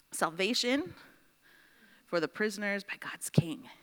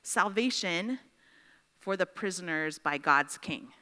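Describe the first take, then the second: First: The second half drops to a whisper; soft, whispered restatement; hushed repeat. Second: Said in the usual way. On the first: Shown as a demonstration. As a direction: let it fall into a whisper so it sinks in. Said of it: "repeats the same emphasis, hushed". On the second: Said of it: "restates the emphasis for the class".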